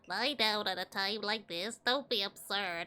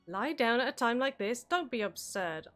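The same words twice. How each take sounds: First: It is said in a put-on Backlog voice. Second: It is said in the speaker's natural voice.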